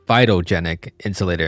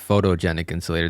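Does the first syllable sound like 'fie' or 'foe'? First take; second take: fie; foe. First: The first syllable sounds like 'fie'. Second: The first syllable sounds like 'foe'. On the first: The speaker calls it right. "It might be called phytogenic insulator" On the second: The speaker calls it wrong. "I've been calling it photogenic insulator this whole time"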